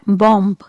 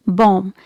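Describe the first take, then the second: First: Bomb with the final B sounded; wrong bomb. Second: Bomb ending on m, B silent; correct bomb. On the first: Teacher showing learners the common mistake, B pronounced. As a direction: say bomb ending on a clear b as the mistake. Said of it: "It's not bomb". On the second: Teacher modelling the correct form for viewers, silent B. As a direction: say bomb closing on the m. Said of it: "Letter B is silent here". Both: Shown as a demonstration.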